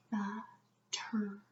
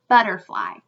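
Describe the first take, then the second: First: Slow whisper, Butterfly in three separate parts; whispered syllables. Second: Said in the usual way. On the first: Shown as a demonstration. Teacher checking the syllable count, whispered slowly. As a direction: whisper but, ter, fly with gaps.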